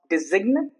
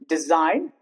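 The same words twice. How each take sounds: First: The G is pronounced. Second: The G is silent. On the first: The speaker calls it wrong. "it's not design" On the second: The speaker calls it right. "the G is obviously silent all the time"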